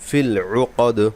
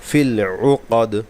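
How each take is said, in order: No difference in how they are said.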